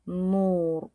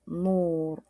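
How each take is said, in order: The two takes are said the same way.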